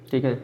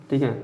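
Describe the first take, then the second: No difference in how they are said.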